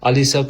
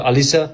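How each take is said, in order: The two takes are said the same way.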